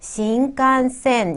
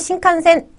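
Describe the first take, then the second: First: The word is drawn out evenly in six beats. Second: The word is said quickly in three short beats. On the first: The speaker calls it right. "여섯 개의 박자를 끄셔야 되죠. 그래서 신칸센 이렇게 미는 듯이 발음하셔야겠죠" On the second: The speaker calls it wrong. "세 박자로 세 음절로 얘기할 수 있지만 일본 친구들한테 신칸센 이렇게 하면 잘 못 알아들을 것 같아요"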